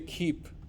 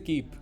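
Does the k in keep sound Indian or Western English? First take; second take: Western; Indian. First: The k is said the Western English way. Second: The k is said the Indian English way. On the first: The speaker calls it right. "They say keep" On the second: The speaker calls it wrong. "They will never say keep"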